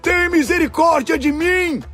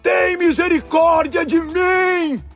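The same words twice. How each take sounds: First: High pleading shout; crying out. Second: Very high, slow stretched-out plea; shouting even harder. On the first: Blind beggar begs Jesus for mercy, high pleading shout. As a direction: cry for mercy at a high pitch. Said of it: "começou a gritar". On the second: Blind beggar defies those silencing him, long desperate shout. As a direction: wail it out slowly at full shout. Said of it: "ele gritava ainda mais alto". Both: A narrator's reading.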